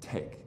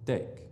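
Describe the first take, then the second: First: The t is released with a puff of air. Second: The t is released without a puff of air. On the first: "Did you feel a little puff of air? ... we aspirate that sound" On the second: "Spanish doesn't do it ... they'll say"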